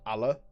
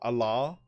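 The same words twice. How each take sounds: First: The name ends without an r sound. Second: The name ends with an r sound. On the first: The speaker calls it right. "because I'm British, I pronounce that Allah" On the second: The speaker calls it wrong. "not Allah"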